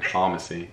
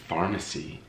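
First: It is said in a British accent. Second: It is said in an American accent. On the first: The speaker calls it right. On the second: The speaker calls it wrong.

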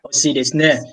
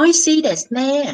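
First: It is said in a plain, masculine style. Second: It is said in a cute, feminine style. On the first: "con trai sẽ đọc là" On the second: "con gái sẽ đọc là"

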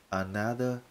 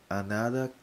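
No difference in how they are said.

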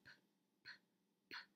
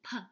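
First: The p sound is said with no vowel after it. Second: The p sound is said with an extra vowel after it. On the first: The speaker calls it right. "Our letter P makes the p sound" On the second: The speaker calls it wrong. "we don't add an extra syllable like p. That's not our sound"

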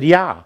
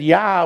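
First: It is said in the speaker's own plain accent. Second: It is said in a strong German accent.

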